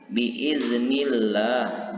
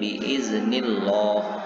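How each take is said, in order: First: The 'l' in Allah is light and thin. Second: The 'l' in Allah is heavy and thick. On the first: The speaker calls it right. "Jadi biiznillah, ... dibaca harus tipis" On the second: The speaker calls it wrong. "bukan biiznillah"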